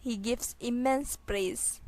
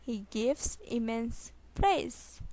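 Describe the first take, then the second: First: Said in the usual way. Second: Slow, separated words; slow repeat. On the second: Shown as a demonstration. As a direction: pause before the final word. Teacher repeats sentence slowly. (धीरे, रुक-रुक कर)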